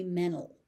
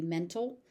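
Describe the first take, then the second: First: "mental" as MEN-ul, no T; dropped T. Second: "mental" as MEN-tul, with a light T; T pronounced. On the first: Teacher giving learners the other option, "mental" without the T. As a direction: skip the T in "mental" entirely. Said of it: "the T is dropped completely". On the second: Teacher giving learners one option, "mental" with its T. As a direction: keep a light T after the N in "mental". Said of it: "The T is very light". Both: Shown as a demonstration.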